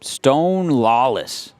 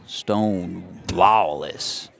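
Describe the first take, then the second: First: Said in the usual way. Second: Slow, low Western drawl. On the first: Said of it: "need to say it with a bit of a drawl". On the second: Shown as a demonstration. Announcer playing up batter's name like a Western sheriff, slow drawl. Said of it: "say it with a bit of a drawl".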